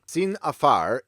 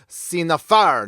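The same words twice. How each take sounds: First: Said in the usual way. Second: Slow, louder hammed-up French accent; mock French accent. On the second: Pronouncing a legal term for viewers, exaggerated French accent. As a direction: draw it out in a showy fake French accent. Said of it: "let me use my best French accent".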